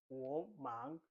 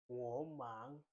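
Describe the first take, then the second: No difference in how they are said.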